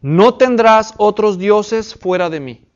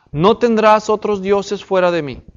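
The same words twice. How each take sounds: First: Slow, weighty reading of a commandment; slow scripture reading. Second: Said in the usual way. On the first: Shown as a demonstration. Teacher reading the first commandment to the class, slow and weighty. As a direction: read it out slowly, each word weighed. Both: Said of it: "mandamiento número uno".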